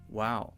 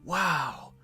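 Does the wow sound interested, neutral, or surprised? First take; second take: neutral; surprised. First: It is said flatly, without much emotion. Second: It is said with a surprised tone. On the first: The listener wants the speaker to keep talking. "that means I'm listening, keep going" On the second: The listener did not expect it. "maybe I'm surprised"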